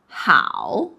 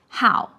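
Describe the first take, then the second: First: The syllable does not have a falling tone. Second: The syllable has a sharply falling fourth tone. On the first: It means good. "like in 你好?" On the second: It means hobby. "how here it comes with the fourth tone"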